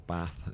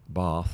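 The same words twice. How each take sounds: First: It is said in the speaker's home regional accent. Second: It is said in a standard accent.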